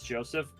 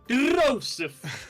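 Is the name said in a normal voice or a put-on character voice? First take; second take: normal; character voice. First: It is said in his normal voice. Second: It is said in a character voice, rolling R's.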